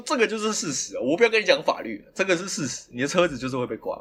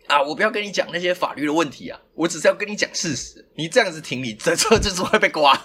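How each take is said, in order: First: Dead certain, retold. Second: Higher, mildly insistent retold warning; dead certain, retold. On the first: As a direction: imitate calm certainty, dropping to usual pitch. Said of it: "对，他很笃定". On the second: Driver imitates the auntie warning him, dead certain. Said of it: "欸，他很笃定".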